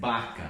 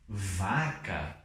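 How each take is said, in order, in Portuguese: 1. A primeira consoante soa como b. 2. A primeira consoante soa como v. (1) "No espanhol estándar nós não vamos ler vaca" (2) "nós vamos ler vaca"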